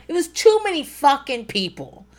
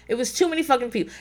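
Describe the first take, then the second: First: Raised, exasperated higher pitch; emphatic complaint. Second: Fast, tossed-off repeat; quick muttered repeat. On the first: Complaining to listeners about crowds, exasperated. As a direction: hit it hard, fed up. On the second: Repeating the crowd complaint to listeners, quick aside. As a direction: rattle it off under the breath. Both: Real, not acted.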